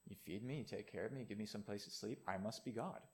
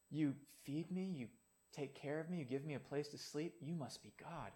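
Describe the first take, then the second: First: Smug cat. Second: Soft, grateful voice of a faithful dog; humble dog. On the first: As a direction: lower and softer, a self-satisfied cat. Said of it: "And the cat says". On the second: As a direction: look up at your owner in simple gratitude. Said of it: "the dog says". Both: Retold or imitated.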